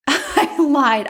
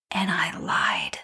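First: Higher, amused repeat through a laugh; laughing confession. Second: Slow, whispered admission; hushed confession. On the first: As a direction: laugh as you own up to it. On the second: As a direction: whisper it like a guilty secret. Confesses to lying. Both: Real, not acted.

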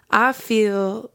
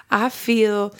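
No difference in how they are said.

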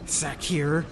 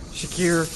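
First: "Shakir" said as sah-KEER with a flat S; a clumsy first try at "Shakir"; mispronounced name. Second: "Shakir" said as shuh-KEER with a soft SH; corrected name. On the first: Kaa fumbling the tiger's name, sah-KEER. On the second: Kaa correcting himself, shuh-KEER. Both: Shown as a demonstration.

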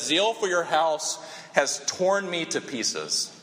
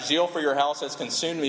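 First: "torn me to pieces" drawn out slowly and pressed hard; slow, grave reading, stress on "torn"; slow, weighty emphasis. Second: Said in the usual way. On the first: Shown as a demonstration. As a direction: lean into "torn me to pieces", let it land slowly. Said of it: "the Hebrew literally says". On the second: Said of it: "Literally, we have in our passage".

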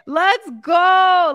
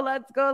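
First: Loud, higher cheer; cheering shout. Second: Said in the usual way. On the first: Real, not acted. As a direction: punch it out like a hype coach. Cheering Amanda's husband.

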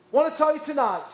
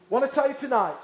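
No difference in how they are said.

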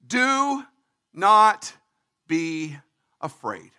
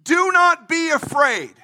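First: Each word set apart, fading away; Do, not, be, afraid, spaced and fading; slow word by word. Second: NOT punched, phrase said together; stress on not. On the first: Acted. Moses calming the people, words spaced and fading. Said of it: "Moses said to the people". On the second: Shown as a demonstration. Preacher repeating Moses, stress on not. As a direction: hit the word not.

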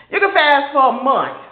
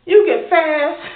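First: "can" leaned on, loud and falling; stress on can. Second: "You" hit hard and loud; stress on you. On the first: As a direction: lean on "can" as if to say sure you can. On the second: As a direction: punch "You", then let the rest fall. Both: Acted. Mocking those who boast of fasting.

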